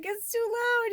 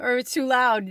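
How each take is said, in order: First: Squeaky mock gremlin complaint, far higher; teasing the viewers as gremlins, squeaky complaint. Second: Said in the usual way. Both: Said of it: "you're like".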